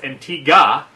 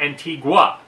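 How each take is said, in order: First: The word is said the way locals say it. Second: The word is said the way outsiders say it. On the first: This is how people there say it. The speaker calls it right. "In Antigua, Antigua is pronounced Antigua" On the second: This is how people elsewhere say it. The speaker calls it wrong. "not Antigua"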